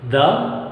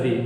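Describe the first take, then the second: First: "The" as in "thuh". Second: "the" rhyming with "see"; "the" as thee. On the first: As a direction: say "The" with an open, neutral vowel. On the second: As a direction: say "the" with a long ee. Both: Shown as a demonstration. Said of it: "where can we pronounce T H E".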